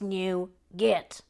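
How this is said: The word is said in the American way. "And in the U S, it is nougat"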